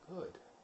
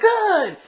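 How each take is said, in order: First: It is said quietly and calmly. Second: It is said loudly and excitedly.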